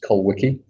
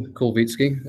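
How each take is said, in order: First: The surname is said with English pronunciation. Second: The surname is said with Polish pronunciation. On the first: This is how others used to say the name. "when I was in high school, it was Kulwicki" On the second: This is how the name is properly said. "that's the correct Polish pronunciation there"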